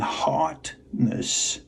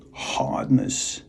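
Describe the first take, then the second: First: "heartness" split slowly into "heart... ness"; slow, deliberate "heartness" with a gap before "ness"; careful enunciation. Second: "hardness" said evenly as one word; careful enunciation. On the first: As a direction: stop on the t of "heart", pause, then add "ness". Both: Shown as a demonstration. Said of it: "It sounds the same, but it's hard heartness".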